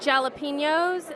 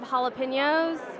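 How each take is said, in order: First: It is said in a British accent. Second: It is said in an American accent. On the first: "they'll say jalapenos" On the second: "instead of jalapenos"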